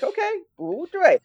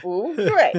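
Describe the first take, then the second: First: Put-on Okay, bu dui said high in an American accent, flat tones. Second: Bu dui with crisp falling Mandarin tones, teacher style; native Chinese tones. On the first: Freshman repeating the teacher's bu dui in an American accent. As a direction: echo bu dui like an American beginner, tones lost. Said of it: "with my American accent". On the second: Retold or imitated. Teacher correcting the freshman, curt Mandarin Bu dui. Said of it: "I couldn't say the way I could say it now".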